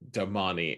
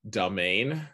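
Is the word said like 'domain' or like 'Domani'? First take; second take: Domani; domain. First: It is said like Domani, ending in 'ee'. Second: It is said like the word domain. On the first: This is how the narrators say it. "the narrators have decided to call it Domani" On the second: This is how the reader said it in their head. "I used to pronounce it mentally as domain"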